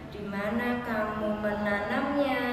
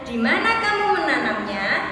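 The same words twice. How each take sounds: First: It is said in a flat, statement-like tune. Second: It is said with a questioning tune. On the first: The speaker calls it wrong. "Tidak mungkin kita bertanya, ... Kan nggak mungkin" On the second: The speaker calls it right. "Pasti tanyanya"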